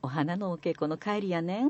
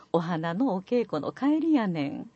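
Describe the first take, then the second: First: 「お花のお稽古の帰りやねん」 softer, rising on 「ねん」; alternative take. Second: 「お花のお稽古の帰りやねん」 slow, falling at the end; full line demo. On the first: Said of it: "あるいは". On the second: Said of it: "続けてみます". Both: Shown as a demonstration.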